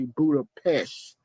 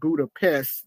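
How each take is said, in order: First: It is said the local Hungarian way. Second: It is said the usual English way. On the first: This is how the locals say it. "they say Budapest" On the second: This is how English speakers say it. "we pronounce it Budapest"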